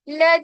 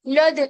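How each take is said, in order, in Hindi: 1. L की ध्वनि हल्की और पतली है। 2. L की ध्वनि भारी और मोटी है। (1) "लाम जो है यहाँ पर मोटा नहीं होना चाहिए" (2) "लद ऐसे नहीं"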